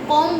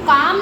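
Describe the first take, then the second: First: The vowel is a rounded 'aw'. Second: The vowel is an open, unrounded 'aa'. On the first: The speaker calls it right. "कॉम बोल रहे" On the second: The speaker calls it wrong. "हम काम नहीं बोल रहे"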